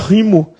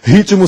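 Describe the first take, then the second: First: The T in the middle is silent. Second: The T in the middle is pronounced. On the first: The speaker calls it wrong. "Se o T fosse mudo" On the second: The speaker calls it right. "com T sonoro sem vogal posterior"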